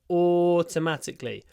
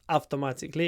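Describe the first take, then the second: First: The first vowel is a long 'or' sound. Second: The first vowel is short, not a long 'or'. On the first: The speaker calls it right. "a long or sound" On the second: The speaker calls it wrong. "It's not automatically"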